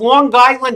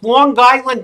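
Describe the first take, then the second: First: It is said in a New York accent. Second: It is said in a New York accent.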